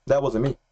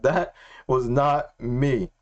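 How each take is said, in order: First: Said in the usual way. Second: Very slow quote, word by word; drawn-out, measured restatement; slow, deliberate. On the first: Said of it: "That's exactly what he said". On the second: Retold or imitated. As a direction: spell it out with weighty pauses. Restating God's words slowly for emphasis.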